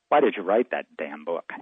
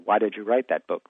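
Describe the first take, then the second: First: It is asked in a hostile, irritated tone. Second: It is asked in a pleasant, friendly tone.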